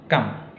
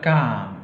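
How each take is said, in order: First: The vowel is cut short. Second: The vowel is held long. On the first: The speaker calls it right. "pendek, kam. Jadi bukan kam, tapi kam" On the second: The speaker calls it wrong. "bukan kam"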